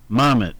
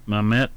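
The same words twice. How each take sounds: First: Mamet with the first syllable punched, MAM-et; stress on the first syllable. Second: Said in the usual way. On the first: Shown as a demonstration. Host correcting himself on air, Mamet stressed on the first syllable. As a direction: lean hard on the start of Mamet, MAM-et. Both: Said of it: "is how they put the emphasis on the first syllable".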